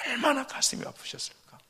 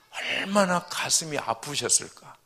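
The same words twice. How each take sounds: First: 얼마나 가슴이 아프셨을까 repeated much higher, aching; anguished echo. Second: Said in the usual way. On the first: Shown as a demonstration. A pastor imagining God's heartbreak, high and aching. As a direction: lift 얼마나 high and let the line ache.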